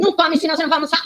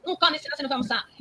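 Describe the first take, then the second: First: High, fast mock mother's warning; mother scolding. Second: Mother scolding. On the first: Mother warns child grabbing a snack, high and fast. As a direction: scold the hungry child like a fussy mom. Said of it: "E a mãe fala assim". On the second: Retold or imitated. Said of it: "Ela não é".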